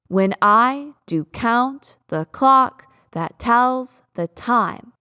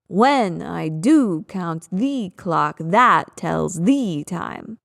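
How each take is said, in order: First: Every second syllable is said louder. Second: Every first syllable of each pair is louder. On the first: "over-exaggerate the pattern of emphasis, the meter of this line" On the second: "If I were to reverse that, it would sound kind of stupid"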